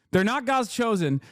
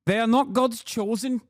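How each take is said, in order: First: Said in the usual way. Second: Clumsy attempt at South African accent; bad South African accent. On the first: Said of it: "I can't do it". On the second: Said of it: "No, that's f-, awful".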